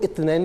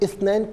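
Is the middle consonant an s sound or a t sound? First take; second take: t sound; s sound. First: The middle consonant is a t sound. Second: The middle consonant is an s-like sound.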